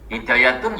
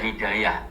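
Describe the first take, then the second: First: The word ends with a full tun syllable. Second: The word ends in a stopped h sound.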